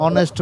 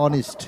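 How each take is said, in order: First: অনেস্ট with an open e, "o-nest"; common mispronunciation. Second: অনেস্ট with a short i, "o-nist"; corrected pronunciation. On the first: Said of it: "আসলে অনেস্ট না". (অনেস্ট, শেষে এ-কার দিয়ে "নেস্ট" উচ্চারণ) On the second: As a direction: say অনেস্ট as "ON-ist", second vowel reduced to i. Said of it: "উচ্চারণটা হবে অনেস্ট।". (অনেস্ট, ই-কার দিয়ে "অনিস্ট" উচ্চারণ) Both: Shown as a demonstration.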